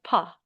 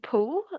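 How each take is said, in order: First: The vowel is an open A-like sound. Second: The vowel is a rounded O sound. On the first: The speaker calls it right. "it's not the O sound, but pa" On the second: The speaker calls it wrong. "Instead of saying poo"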